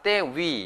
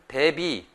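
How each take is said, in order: First: The second syllable begins with a w sound. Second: The second syllable begins with a b sound. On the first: The speaker calls it right. "대비가 아니라 때위 이렇게 표현을 해야 됩니다" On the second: The speaker calls it wrong. "한국 분들이 이거를 발음을 대비, 대비 이렇게 표현하는 경우도 있는데"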